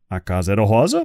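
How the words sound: The voice rises at the end, as a question.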